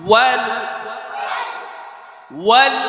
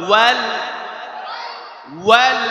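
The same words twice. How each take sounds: Both takes have the same delivery.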